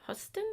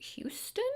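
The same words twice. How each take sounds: First: "Huston" with a short uh in the first syllable; "Huston" without the you sound; second guessed pronunciation. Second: "Houston" like the Texas city; "Houston" with a long you sound; first guessed pronunciation. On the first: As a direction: say "Huston" as HUSS-tun. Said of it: "I don't know". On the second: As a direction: say "Houston" as HYOO-stun. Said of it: "Huston? I don't know". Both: Shown as a demonstration.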